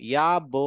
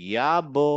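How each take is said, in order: Both takes have the same delivery.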